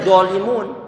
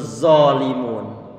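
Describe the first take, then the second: First: The word starts with a hard d sound. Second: The word starts with a thick z sound. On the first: "bukan dolimun" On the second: "yang muncul zalimun. Huruf zai yang diucapkan dengan model tebal"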